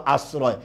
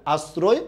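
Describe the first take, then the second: First: "আশ্রয়" as "as-raw-e" with open o; s not sh and a wide o in "আশ্রয়". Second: "আশ্রয়" as "as-ro-e" with rounded closed o; s not sh and a tight o in "আশ্রয়". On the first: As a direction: say "আশ্রয়" with o as in "law". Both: Shown as a demonstration. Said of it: "এটা দুটো উচ্চারণ পাবেন".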